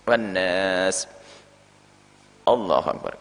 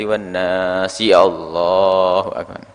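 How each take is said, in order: First: A short pause comes before Allahu akbar. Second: The words run straight on without a pause. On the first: The speaker calls it right. "Ada yang terputus dengan jarak" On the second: The speaker calls it wrong. "Ya sah, tapi tidak seperti itu adabnya"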